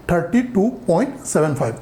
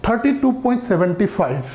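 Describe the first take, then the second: First: "thirty two point सेवन फ़ाइव" with each digit after the point said singly, seven five; correct reading. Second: "thirty two point सेवेंटी फ़ाइव" read with the decimal digits as one number, seventy five; wrong reading. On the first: Maths teacher shows students the right way, "सेवन फ़ाइव" digit by digit. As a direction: read the decimals one by one as "सेवन फ़ाइव". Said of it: "इसको ऐसे पढ़ा जाता है कि". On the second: Maths teacher shows students the wrong way, reading "सेवेंटी फ़ाइव" as a single number. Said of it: "इसको ऐसे मत पढ़िए कि". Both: Shown as a demonstration.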